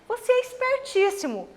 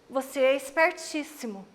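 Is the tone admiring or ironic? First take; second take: admiring; ironic. First: It sounds genuinely admiring and emotional. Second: It sounds ironic, hinting the opposite.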